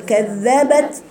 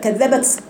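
First: The final t releases a plain puff of breath. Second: The final t releases with an s-like hiss. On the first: The speaker calls it right. "حرف شديد به همس بعمل فيه ايه واقفه اقول كذبت وبعدين بطلع الهمس" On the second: The speaker calls it wrong. "مش كذبت وطلع فيها سين ابدا"

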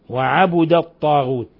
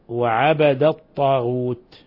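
First: The b is followed by a u vowel. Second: The b is followed by an a vowel. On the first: The verb is in the passive voice. "بضم الباء" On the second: The verb is in the active voice. "بفتح الباء"

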